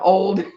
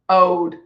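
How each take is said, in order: First: The L sound is clearly pronounced. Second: The L sound is left out. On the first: "I also had to learn to pronounce the L in old" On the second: "it's ode. ... There's no I"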